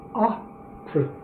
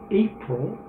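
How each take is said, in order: First: It is said with German-like vowels. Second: It is said with modern English vowels. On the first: This is how English speakers said it around 1410. "they said April, the way a German would say" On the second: This is how English speakers say it today. "we say April"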